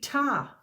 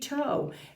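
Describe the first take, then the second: First: The word ends with an open 'ah' vowel. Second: The word ends with a long 'oh' vowel. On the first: "If I did these two sounds, t, ah, it would be ta" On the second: "if I did an O sound, t, O, it would be toe"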